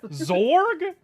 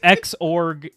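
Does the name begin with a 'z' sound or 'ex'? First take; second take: z; ex. First: The name begins with a plain 'z' sound. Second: The name begins with the letter name 'ex'. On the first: The speaker calls it wrong. "pronounced Zorg because that's how it's spelled" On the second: The speaker calls it right. "no, it's X-Org, you dingus"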